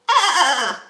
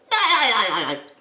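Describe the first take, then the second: First: Higher squeakier laugh; rapid piercing giggle; SpongeBob laugh. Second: High loud staccato cackle; rapid squeaky laugh; SpongeBob laugh. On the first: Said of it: "just go up high". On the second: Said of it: "You go". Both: Shown as a demonstration.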